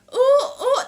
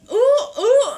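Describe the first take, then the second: First: It is said in a plain, ordinary way. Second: It is said in an exaggerated, funny way.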